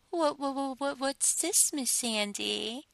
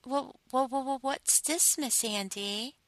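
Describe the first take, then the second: First: High, mocking "what, what" stammer, slowing on "Miss"; teasing imitation stutter. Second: High, stammering "wha-, wha-" of a flustered sub; mock stutter. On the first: Mistress imitating her sub's stammer mockingly. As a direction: parrot his stammer back at him. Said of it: "Of course I imitate you and laugh". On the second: Mistress mocking her caught sub with a stutter. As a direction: imitate a nervous stammer, pitched up. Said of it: "as you stutter".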